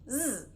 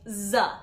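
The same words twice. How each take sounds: First: The sound ends with no added vowel. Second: The sound ends with an added short vowel. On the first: The speaker calls it right. "instead of just Z" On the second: The speaker calls it wrong. "with the schwa at the end"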